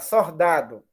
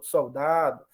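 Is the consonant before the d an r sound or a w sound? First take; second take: r sound; w sound. First: The syllable ends with an r sound. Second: The syllable ends with a w-like semivowel. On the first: This is how older people from the interior say it. "ela ia falar sordado" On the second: This is the form the researcher reported. "ela diz que ocorreu como semivogal"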